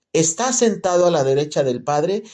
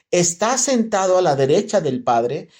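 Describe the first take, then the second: The two takes are said the same way.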